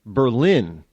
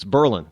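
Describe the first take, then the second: First: "Berlin" said BER-lin, stress on the first syllable; local pronunciation. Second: "Berlin" said ber-LIN, stress on the second syllable; standard pronunciation. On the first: New Hampshire host showing the local way to say the town name, stress on BER. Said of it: "we don't even call Berlin". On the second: Host contrasting with the standard name of the German city, stress on LIN. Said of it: "It's Berlin". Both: Shown as a demonstration.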